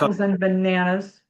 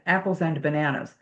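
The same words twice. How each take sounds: First: The word 'and' is reduced and runs together. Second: The word 'and' is said fully, with a stop. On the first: "kind of goes together" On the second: "there's nothing wrong with saying it that way"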